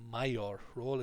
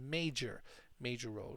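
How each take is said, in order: First: Major is said with a foreign-style pronunciation. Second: Major is said with an English pronunciation. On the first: The speaker calls it wrong. "this one is always mispronounced by students. It's not a mayor role" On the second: The speaker calls it right. "it's a major, major role"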